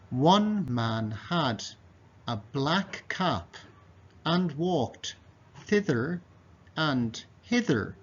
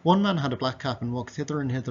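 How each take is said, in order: First: It is read slowly and precisely. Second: It is read quickly. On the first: "One more time slowly" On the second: "now I'm going to read it quickly"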